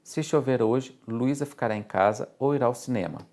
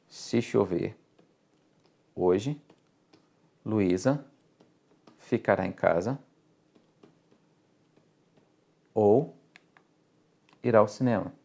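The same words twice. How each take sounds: First: Said in the usual way. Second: Slow dictation, one chunk at a time; lê pausadamente, trecho por trecho; phrase by phrase with long pauses. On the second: Shown as a demonstration. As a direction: break it into chunks, pausing after each piece. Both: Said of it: "vamos fazer o resumo".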